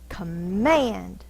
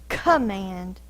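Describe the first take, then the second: First: The stress is on the second syllable. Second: The stress is on the first syllable. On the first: The speaker calls it right. "the force is on the second syllable" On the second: The speaker calls it wrong. "We don't say command"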